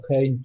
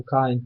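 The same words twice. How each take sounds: First: Cain said the English way, as "Kejn"; English pronunciation. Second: Cain said the Polish way, as "Kain"; Polish pronunciation. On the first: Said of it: "Anglicy czytają Cain". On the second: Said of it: "tutaj się czyta po polsku Cain". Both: Shown as a demonstration.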